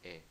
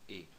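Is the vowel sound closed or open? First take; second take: open; closed. First: The vowel is open, like é. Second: The vowel is closed, like ê. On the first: The speaker calls it wrong. "Não é o som E" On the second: The speaker calls it right. "com acento circunflexo assim"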